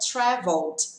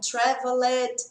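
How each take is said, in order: First: The ending is just a plain d sound. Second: The ending is an extra syllable with a vowel. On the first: The speaker calls it right. "fica traveled" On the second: The speaker calls it wrong. "às vezes sai um traveled, não tem esse E"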